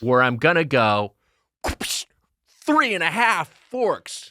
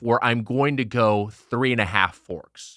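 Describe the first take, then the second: First: It is said with more flair and energy. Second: It is said plainly, without extra energy.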